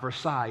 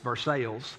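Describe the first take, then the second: First: The name is said the standard French-style way. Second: The name is said the local Kentucky way.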